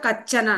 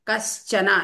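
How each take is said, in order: First: The middle has only a ch sound. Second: The middle has an sh sound before ch. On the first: The speaker calls it wrong. "కచ్చన అని" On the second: The speaker calls it right. "ఎస్ హెచ్ sound కూడా అక్కడ రావాలి"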